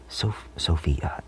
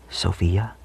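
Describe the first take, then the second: First: Sophia drawn out slowly on a whisper, starting over. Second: Said in the usual way. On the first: Shown as a demonstration. Showing viewers that Sophia is wordy, slow whisper. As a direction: breathe Sophia out slowly, syllable by syllable. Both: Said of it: "it's a lot of syllables".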